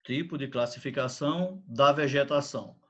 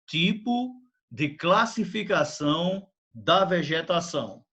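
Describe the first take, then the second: First: Said in the usual way. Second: Slow, clear dictation pace; dictating. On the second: Shown as a demonstration. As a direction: dictate it slowly for copying. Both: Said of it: "Escrevam, por favor".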